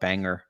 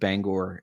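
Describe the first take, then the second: First: It is said the way outsiders say it. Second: It is said the way locals say it. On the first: "out of staters will come in and call it Banger" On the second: "we pronounce it Bangor"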